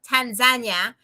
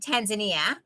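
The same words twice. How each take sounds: First: It is said the local, non-American way. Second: It is said the usual American way. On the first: "That's the correct way to say it" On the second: "as most people in America say"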